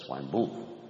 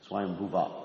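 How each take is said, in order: First: The final a vowel is dropped. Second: The final a vowel is clearly pronounced. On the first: The speaker calls it wrong. "Instead of" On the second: The speaker calls it right. "you got to pronounce the last A"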